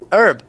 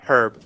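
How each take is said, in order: First: The word begins with a vowel, no h sound. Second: The word begins with a soft h sound. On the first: This is the American pronunciation. "just like herb in the U S" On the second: This is the British pronunciation. "herb with the soft H sound"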